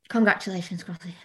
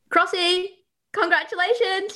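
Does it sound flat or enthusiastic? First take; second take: flat; enthusiastic. First: It sounds flat and unenthusiastic. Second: It sounds warm and enthusiastic.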